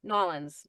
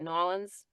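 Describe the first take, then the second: First: The name is said fast, squeezed into two syllables. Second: The name is said fast, squeezed into two syllables.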